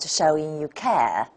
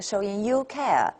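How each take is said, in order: First: The word 'you' is unstressed. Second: The word 'you' is stressed. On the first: The speaker calls it right. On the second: The speaker calls it wrong.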